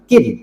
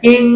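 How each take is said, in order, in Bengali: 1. n-টি একটি স্পষ্ট n ধ্বনি হিসেবে উচ্চারিত হয়। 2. n-টি একটি অনুনাসিক ng ধ্বনিতে মিশে যায়। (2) "কিং বলা যাবে না"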